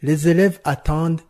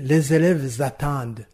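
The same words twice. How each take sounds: First: Élèves and attendent are said without a z link. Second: A z sound links élèves to attendent. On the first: The speaker calls it right. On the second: The speaker calls it wrong.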